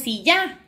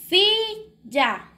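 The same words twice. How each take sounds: First: The stress is on the second syllable. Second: The stress is on the first syllable. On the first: The speaker calls it wrong. "Usted no dice silla" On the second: The speaker calls it right. "donde hacemos más el esfuerzo de voz es en sí"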